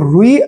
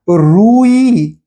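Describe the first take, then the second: First: Both vowels in the word are short. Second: Both vowels in the word are long. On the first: The speaker calls it wrong. "रुई अपने आप में एक गलत उच्चारण है" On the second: The speaker calls it right. "उसका सही उच्चारण है रूई"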